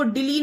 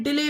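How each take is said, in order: First: "डिली" ending in long ee; wrong vowel. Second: "डिले" ending in ay; correct vowel. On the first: Teacher warning against a misreading, "डिली" with ee. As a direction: say "डिली" with ee at the end. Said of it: "डिली नहीं पढ़ते हैं". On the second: Teacher giving the correct reading, "डिले" with ay. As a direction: say "डिले" with ay at the end. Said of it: "डिले पढ़ते हैं". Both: Shown as a demonstration.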